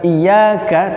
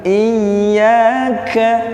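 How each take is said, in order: First: The doubled y sound is released quickly. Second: The doubled y sound is held firmly. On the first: The speaker calls it wrong. "bukan dilepas ya" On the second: The speaker calls it right. "Tasydid tetap"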